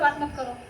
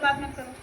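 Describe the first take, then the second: First: It is said quickly and forcefully. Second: It is said in a plain, even way.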